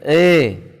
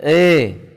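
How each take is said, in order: First: The vowel is said with the mouth barely open. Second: The vowel is said with the mouth barely open.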